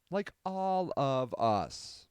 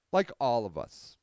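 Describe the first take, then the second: First: "Like all of us" drawn out word by word; slow, measured repeat; slow and deliberate. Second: Said in the usual way. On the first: Real, not acted. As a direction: stretch out "Like all of us" slowly for emphasis. Repeats the phrase slowly for emphasis.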